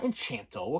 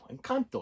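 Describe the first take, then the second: First: The middle consonant is a ch sound. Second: The middle consonant is a hard k sound. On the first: The speaker calls it wrong. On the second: The speaker calls it right.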